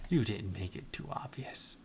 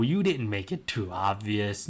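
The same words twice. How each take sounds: First: Whispered teasingly, much softer; whispered aside to the listeners; mock whisper. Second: Said in the usual way. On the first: Shown as a demonstration. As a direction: hush it like a secret.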